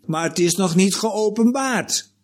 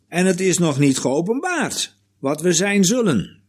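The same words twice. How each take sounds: First: Geopenbaard hoger en nadrukkelijk, dalend aan het eind; nadruk op geopenbaard. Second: Geopenbaard duidelijk benadrukt, hoog ingezet en dalend; nadruk op geopenbaard. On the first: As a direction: stress the word geopenbaard, pitched up. (klemtoon op 'geopenbaard') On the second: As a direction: leg de klemtoon op geopenbaard. (nadruk op 'geopenbaard') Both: Shown as a demonstration. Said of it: "Met de nadruk op geopenbaard".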